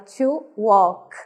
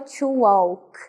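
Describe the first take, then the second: First: The L is silent in walk. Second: The L is sounded in walk. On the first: The speaker calls it right. "o L ele não é pronunciado" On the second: The speaker calls it wrong. "A gente não fala"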